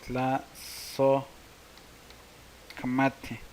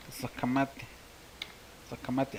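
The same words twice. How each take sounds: First: Very slowly drawn-out Tlazohcamati; slow pronunciation. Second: Said in the usual way. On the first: Shown as a demonstration. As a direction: stretch Tlazohcamati syllable by syllable. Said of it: "Gracias, se dice". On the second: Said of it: "se dice".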